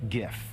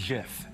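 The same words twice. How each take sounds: First: It begins with a hard G, like gift. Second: It begins with a soft G, like jif. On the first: This follows the G in graphic. The speaker calls it wrong. "not GIF" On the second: This is how the word's creator says it. The speaker calls it right. "the creator of the GIF clarified only yesterday that it is pronounced GIF"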